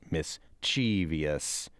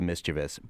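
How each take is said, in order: First: Four syllables, stress on the second syllable. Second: Three syllables, stress on the first syllable. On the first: The speaker calls it wrong. "it is non-standard the way that the majority of you at that school are using it" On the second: The speaker calls it right. "as opposed to"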